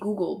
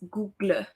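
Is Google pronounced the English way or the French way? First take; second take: English; French. First: The word has the usual English pronunciation. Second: The word has a French-style pronunciation. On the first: This is how most people say it. "People say Google" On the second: This matches how the word is spelled. "In French, it sounds more uh, more accurate when I say it like that"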